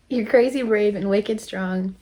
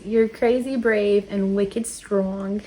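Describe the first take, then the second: First: Said in the usual way. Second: Slow, drawn-out attempt at a Boston accent; bad Boston accent. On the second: Shown as a demonstration. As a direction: try a Boston accent, not very convincingly. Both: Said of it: "I had to say that in a Bo-, Boston accent".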